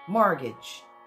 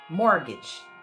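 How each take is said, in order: First: The last syllable has a short i sound. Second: The last syllable has a short i sound.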